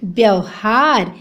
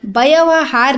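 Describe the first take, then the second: First: "व्यवहार" slowly as byav-haar; low, stretched "व्यवहार" with long haar; correct pronunciation. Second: "व्यवहार" split into ba-ya-va-haar; four separate syllables in "व्यवहार"; wrong pronunciation. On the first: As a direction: join the first consonants of "व्यवहार". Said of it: "व्यवहार नहीं होता". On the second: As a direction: add a vowel after every consonant in "व्यवहार". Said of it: "नहीं होता बच्चों". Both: Shown as a demonstration.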